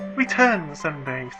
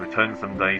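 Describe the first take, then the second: First: It is said in a feminine voice. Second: It is said in a masculine voice. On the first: The speaker calls it right. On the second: The speaker calls it wrong.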